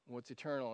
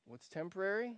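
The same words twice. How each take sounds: First: "eternal" dropped low and soft, falling. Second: "temporary" lifted as a question; rising question on temporary. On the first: Pastor answering himself, hushed falling tone. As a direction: let "eternal" fall quietly and settle. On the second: Pastor quizzing congregation, rising question. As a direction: ask "temporary" with a rising tune. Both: Shown as a demonstration. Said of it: "you gotta remember".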